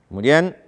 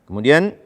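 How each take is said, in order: No difference in how they are said.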